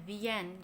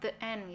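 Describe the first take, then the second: First: 'The' runs smoothly into 'end'. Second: 'The' is said apart from 'end'. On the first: The speaker calls it right. "Kalau digabung jadinya bacanya the end" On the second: The speaker calls it wrong. "Jangan the end gitu ya"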